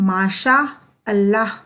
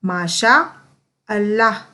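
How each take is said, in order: The two takes are said the same way.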